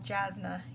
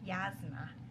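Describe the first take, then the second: First: The name begins with a J sound. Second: The name begins with a Y sound. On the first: This is the speaker's own pronunciation. The speaker calls it right. "I will never, never call Jasna" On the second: This is a pronunciation the speaker refuses to use. The speaker calls it wrong. "never call Jasna Yasna"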